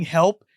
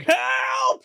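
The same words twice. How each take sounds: First: Brief raised mock cry for help; imitated cry for help; retold scream. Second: Very high mock shout for help; hammed-up high-pitched yell; Leslie Nielsen mocking cry. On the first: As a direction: call help, only half shouted. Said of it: "Ted Danson's just screaming". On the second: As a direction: shriek help as a taunting echo. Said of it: "Leslie Nielsen's like".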